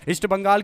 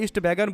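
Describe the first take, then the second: First: The second word is said as 'Bangal'. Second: The second word is said as 'Baigan'. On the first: The speaker calls it right. "East बंगाल की जगह" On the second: The speaker calls it wrong. "East बैगन बोल रहा है"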